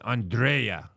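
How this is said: The name is said in a Russian accent.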